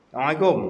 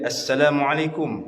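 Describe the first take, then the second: First: Some sounds are dropped or blurred in the greeting. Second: Every sound of the greeting is fully articulated. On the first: The greeting carries no meaning. The speaker calls it wrong. "kalau bagi salam tak betul di luar, tak wajib jawab" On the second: The greeting is a real prayer for well-being. The speaker calls it right. "Kalau dia bagi sebutan betul"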